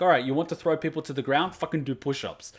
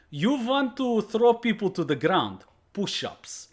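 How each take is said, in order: First: Said in the usual way. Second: Put-on higher, slow stern Russian sensei accent, ending in a breathy bark; imitating the Russian sensei punishing his student; sensei's stern accent. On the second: Sensei scolding student at dojo.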